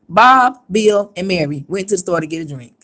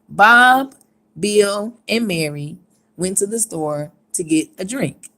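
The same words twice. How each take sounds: First: It is read fast with barely any pauses. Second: It is read with clear pauses between names. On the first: "I paused. I just didn't pause" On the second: "that's one thing"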